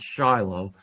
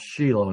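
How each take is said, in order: First: The name is said the English way. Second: The name is said the Hebrew way. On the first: The speaker calls it wrong. "not Shiloh, as it is in English" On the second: The speaker calls it right. "the Hebrew word is pronounced Shiloh"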